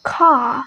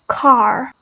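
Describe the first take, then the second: First: British "Car" with no R; "Car" with the final R dropped; British pronunciation. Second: American "car" with a strong R; "car" with the final R sounded; American pronunciation. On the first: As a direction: say "Car" ending on an open ah. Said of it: "British is totally omit that R". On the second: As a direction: say "car" ending on a clear R. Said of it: "American is very emphasized on that". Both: Shown as a demonstration.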